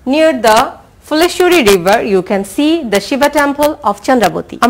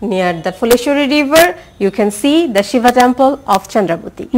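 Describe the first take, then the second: The two takes are said the same way.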